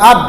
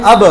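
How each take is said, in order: First: আব closed on the b with no release; stopped final b. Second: আব with the b released in a short echo vowel; bouncing final b. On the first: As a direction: stop dead on the b of আব. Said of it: "এটা তো জজমে উচ্চারণ হইল". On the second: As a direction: strike the b of আব and let it bounce back. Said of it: "ফেরত আসবে". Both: Shown as a demonstration.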